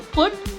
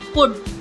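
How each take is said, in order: Both takes have the same delivery.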